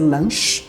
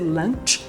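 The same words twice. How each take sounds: First: The final ch has no t sound. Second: The final ch starts with a t sound. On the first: The speaker calls it wrong. "não vai ser lunch" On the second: The speaker calls it right. "sempre vai ter aquele som do T"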